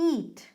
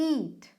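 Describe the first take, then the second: No difference in how they are said.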